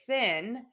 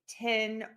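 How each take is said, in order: First: The word begins with a TH sound. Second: The word begins with a T sound. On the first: The speaker calls it right. "instead of people saying" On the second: The speaker calls it wrong. "I might hear people say tin"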